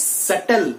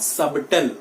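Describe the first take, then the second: First: "subtle" said as SUT-tl, no b; silent b. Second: "subtle" said as SUB-tl, b sounded; wrong subtle. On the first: Teacher corrects students' pronunciation, b silent. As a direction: drop the b in "subtle", slowly. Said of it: "The B is silent over here". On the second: Teacher shows students the mistake, b sounded. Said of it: "not subtle". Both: Shown as a demonstration.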